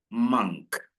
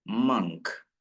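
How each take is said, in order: Both takes have the same delivery.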